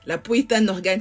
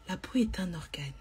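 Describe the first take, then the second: First: It is said in a firmer, less gentle tone. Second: It is said in a soft, very calm voice. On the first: "vous voyez comment je dis ça avec un ton" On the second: "Je vous dis ça avec ma voix douce, très calme"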